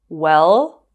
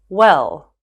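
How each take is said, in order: First: The pitch rises at the end. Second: The pitch falls at the end. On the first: "using rising and falling intonations" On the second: "using rising and falling intonations"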